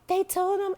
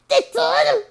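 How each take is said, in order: First: It sounds calm and not angry. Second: It sounds very angry and hard.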